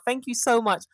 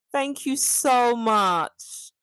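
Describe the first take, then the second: First: Said in the usual way. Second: Slow, stretched thanks leaning on so; drawn-out thanks. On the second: Real, not acted. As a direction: draw every word out slowly, savouring the compliment. Thanking viewer for compliment.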